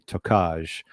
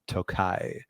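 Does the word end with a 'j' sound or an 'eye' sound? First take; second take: j sound; eye sound. First: The word ends with a 'j' sound. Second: The word ends with an 'eye' sound. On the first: The speaker calls it wrong. "I used to always say Tokaj" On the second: The speaker calls it right. "apparently pronounced Tokai"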